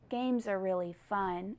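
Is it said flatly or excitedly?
flatly. It is said in a flat, plain way.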